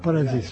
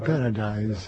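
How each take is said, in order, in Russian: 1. Последний слог произносится как 'dees'. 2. Последний слог произносится как 'dice'. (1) "Да, «парадис»" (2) "как по-английски «парадайз»"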